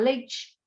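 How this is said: The final vowel sounds like i. This is how it is said in São Paulo state. "a gente fala leite. Então a criança vai escrever leite com i"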